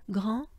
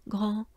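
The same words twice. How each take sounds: The two takes are said the same way.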